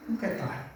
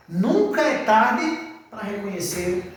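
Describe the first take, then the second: First: "Nunca é tarde" repeated much softer; quiet afterthought of "Nunca é tarde"; soft echo. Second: "Nunca é tarde" drawn out slowly with weight on "Nunca"; preacher stressing "Nunca é tarde" slowly; slow emphasis. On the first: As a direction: drop to a near-hush on "Nunca é tarde". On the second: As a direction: stretch "Nunca" and lean on it. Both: Shown as a demonstration.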